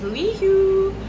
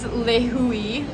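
First: The name ends on the "hu" sound. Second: An extra vowel follows the "hu" sound. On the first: The speaker calls it wrong. "We thought the airport in Kauai was" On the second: The speaker calls it right. "But it's"

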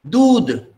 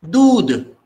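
Both takes have the same delivery.

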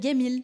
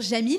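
First: The word begins with a hard g sound. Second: The word begins with a j sound. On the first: This is how Egyptians say it. "ils vont dire Gamil" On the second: This is the usual pronunciation. "au lieu de dire Jamil"

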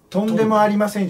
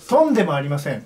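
First: The pitch starts low and rises after the first syllable. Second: The pitch is high on the first syllable, then drops. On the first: It means 'not at all'. "とんでもありませんじゃなく" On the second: It sounds like 'not even a pig'. "今聞いたイントネーション"

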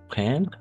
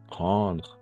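First: The 'en' is said as a plain 'en'. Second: The 'en' is said as a nasal 'on'. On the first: The speaker calls it wrong. "pas prendre" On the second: The speaker calls it right. "on va prononcer on"

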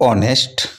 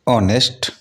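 No difference in how they are said.

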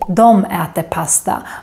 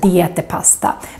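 First: The first word is pronounced 'dom'. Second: The first word is pronounced 'dee' as spelled. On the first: This is the usual everyday spoken form. "most Swedes would say dom äter pasta" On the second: This is the less common form that follows the spelling. "more than de äter pasta"

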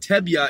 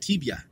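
First: The first vowel sounds like eh. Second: The first vowel sounds like ee. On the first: "instead of Tebya" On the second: "it sounds like Tibya. Like an E sound"

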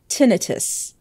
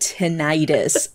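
First: The word is pronounced the British way. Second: The word is pronounced the American way. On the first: "like the British people say it" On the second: "Americans pronounce it tinnitus"

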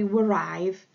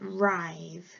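First: The word begins with a W sound. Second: The word begins with an R sound. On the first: The speaker calls it wrong. "It looks like it should say writhe" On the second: The speaker calls it right. "but it actually says writhe"

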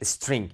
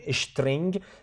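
First: The word is said with an 's' before 't'. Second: The word is said with a 'sh' before 't'. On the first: The speaker calls it right. "کلمه انگلیسی است که به نام استرینگ یاد میشه" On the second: The speaker calls it wrong. "من به خاطر شما میگین تلفظ میکنم"

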